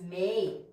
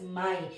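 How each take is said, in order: First: The vowel sounds like 'ay' in 'day'. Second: The vowel sounds like 'eye'. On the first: This is the casual form heard in fast speech. The speaker calls it wrong. "we never read this as may" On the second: This is how the word is read on its own. The speaker calls it right. "It's always my"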